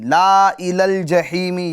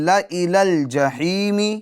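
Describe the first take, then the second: First: The first vowel is drawn out long. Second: The first vowel is kept short. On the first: The speaker calls it wrong. "ये गलत हो जाएगा" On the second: The speaker calls it right. "बल्कि"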